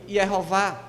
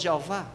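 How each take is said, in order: First: The name begins with a Y sound. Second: The name begins with a J sound. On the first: This form is closest to the original name. The speaker calls it right. "começa com Y o nome de Deus" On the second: This form comes from a later medieval change. The speaker calls it wrong. "alguns chamam de Jeová"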